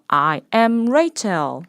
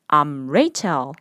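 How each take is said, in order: First: I am is said as two full words. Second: I am is shortened into one quick syllable.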